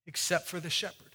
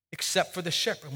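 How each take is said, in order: First: Soft repeat. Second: Said in the usual way. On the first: Shown as a demonstration.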